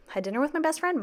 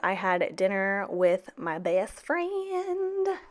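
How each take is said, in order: First: Said in the usual way. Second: Drawn out. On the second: Shown as a demonstration.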